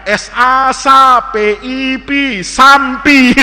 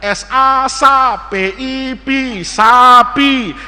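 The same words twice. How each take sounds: First: Slow spelling that lands on sampi with an M; misreading with added M. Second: Said in the usual way. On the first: Acted. Classmate tries once more, slow spelling, M in sampi. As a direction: spell correctly, then say sampi with M before P. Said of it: "Coba temennya". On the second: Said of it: "Saya baca tuh".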